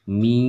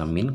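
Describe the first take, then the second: First: The n sound merges into a nasal y. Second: The n sound is pronounced clearly. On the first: "dia menjadi mi" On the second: "suara min yang harusnya dibaca min"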